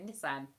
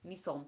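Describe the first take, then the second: First: "Nissan" with short A, NISS-an; British pronunciation. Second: "Nissan" with open back vowel, NEE-sahn; American pronunciation. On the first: Streamer showing how we say it, British pronunciation. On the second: Streamer contrasting with how we say it, American pronunciation. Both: Shown as a demonstration. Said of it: "we say Nissan".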